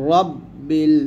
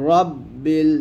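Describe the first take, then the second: The two takes are said the same way.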